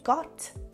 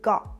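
First: The final T is fully released. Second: The final T abruptly stops the airflow. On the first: "instead of pronouncing the T sound as a T" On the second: "you will pronounce it as a stop T, which is an abrupt stop in the airflow"

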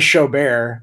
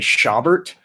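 First: The surname is said like 'show bear'. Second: The surname is said with an Irish-American pronunciation. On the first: This is how people where the speaker lives say it. "Out here, they say Showbear" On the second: This is how people in one region say it. "In Southern Illinois, they say Schaubert, which is a nice Irish pronunciation of a German name"

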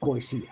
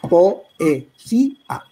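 First: The o and e are merged into one syllable. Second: The o and e are split into separate syllables. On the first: "hay gente que dice poesía" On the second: "lo lógico es decir poesía"

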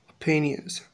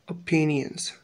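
The two takes are said the same way.

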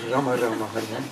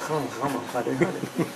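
First: It is said with a Mexican accent. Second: It is said with a French accent.

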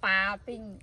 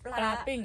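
First: The first syllable drops the L sound. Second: The first syllable keeps a clear L sound. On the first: The speaker calls it wrong. "เมื่อกี้ปลาปิ้ง" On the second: The speaker calls it right. "ปลาปิ้งมันต้องมีลอลิงด้วย ... อันนี้ใช่แล้ว"

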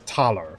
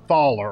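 First: The name starts with a plain aspirated t. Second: The name starts with a th sound. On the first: The speaker calls it right. "The TH is just a aspirated T" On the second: The speaker calls it wrong. "My apologies, it's not Thaller"

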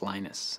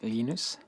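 First: The name is said with an English pronunciation. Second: The name is said with a Swedish pronunciation. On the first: "When I speak English, it's Linus" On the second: "When I speak Swedish, it's Linus"

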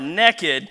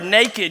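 First: The word is said in a Southern way. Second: The word is said in a standard way. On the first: The person has no clothes on and is up to no good. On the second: The person has no clothes on.

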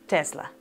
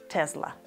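The two takes are said the same way.

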